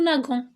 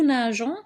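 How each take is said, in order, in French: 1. La consonne du milieu est un son g dur. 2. La consonne du milieu est un son zh doux. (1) "au lieu de nous naguons" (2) "on prononce nous nageons"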